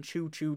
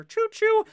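First: Said in the usual way. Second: High, loud hammed-up train whistle call; train whistle choo-choo. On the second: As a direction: toot it like a conductor on a hype train. Playing the hype train conductor.

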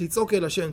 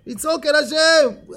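First: Said in the usual way. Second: Loud, high, drawn-out yell; shouting to God. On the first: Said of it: "לא, לא לצעוק על החבר". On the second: Shown as a demonstration. Teacher demonstrates crying out to God, shouting. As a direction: yell it slowly like a street punk. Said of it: "כמו פושטק".

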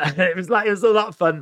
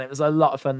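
First: Higher and louder, delighted; beaming with joy; excited. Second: Said in the usual way. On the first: Real, not acted. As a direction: gush about the fun.

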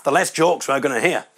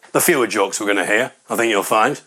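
First: Said in the usual way. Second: Lower-pitched correction of "fewer"; pedantic correction. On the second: Acted. Audience member correcting another's grammar, pedantic and lower. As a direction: put them right on "fewer", dropping the pitch. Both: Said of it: "the guy who, uh, got corrected".

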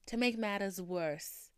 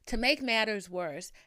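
First: "matters" with a Boston dropped r; slow, Boston-tinged "matters"; accent slipping out. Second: Said in the usual way. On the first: Real, not acted. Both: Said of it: "I tried to say it without it".

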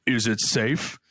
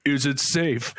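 First: A voice over the store intercom, lightly done; mock intercom voice. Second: Mock intercom voice. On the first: Clerk on the intercom asks the customer, mock intercom voice. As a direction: play it like a hidden clerk on the intercom. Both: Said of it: "over, like, an intercom".

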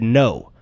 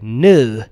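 First: Said in the usual way. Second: Rounded, drawn-out British "No."; fake British accent. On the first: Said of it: "by the end of the sentence". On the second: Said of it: "the first time he said".

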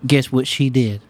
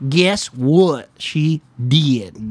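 First: Said in the usual way. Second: Very slow, drawn out; slow drawn-out teaser. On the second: Shown as a demonstration. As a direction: stretch each word slowly for suspense.

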